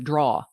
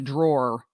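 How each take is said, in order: First: It sounds like the single syllable draw. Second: It sounds like the full word drawer. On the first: The speaker calls it wrong. "get a spoon out of the draw" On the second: The speaker calls it right. "and not the drawer"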